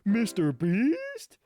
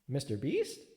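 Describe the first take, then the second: First: It sounds both excited and questioning. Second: It sounds like a plain question.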